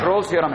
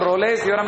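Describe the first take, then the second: First: The name is said with one syllable. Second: The name is said with two syllables. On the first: This is the actual pronunciation. The speaker calls it right. "बाकी ये actual में रोल्स theorem है" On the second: This is how many people say it. The speaker calls it wrong. "इसको कई लोग रोलेस theorem भी बोलते हैं"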